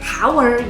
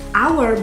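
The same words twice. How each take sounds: First: The word starts with an audible h sound. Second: The word starts with a vowel, h silent. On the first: The speaker calls it wrong. "bukan hour gitu" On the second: The speaker calls it right. "pengucapannya hour itu hour"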